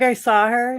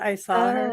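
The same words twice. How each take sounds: First: The word saw ends with an R sound. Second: The word saw ends without an R sound. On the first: This is how the speaker's family says it. "we say saw" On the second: This is how others usually say it.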